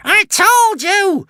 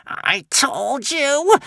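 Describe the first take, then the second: First: Very high, loud, slow cackling screech; gloating witch shriek. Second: Very high, slow, sneering witch hiss. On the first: The witch crowing that she was right, loud shriek. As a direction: crow the triumph at top voice. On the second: The witch gloating over the doomed Vikings, slow high hiss. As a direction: drag out the gloating like a crone. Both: A narrator's reading. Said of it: "hissed the witch".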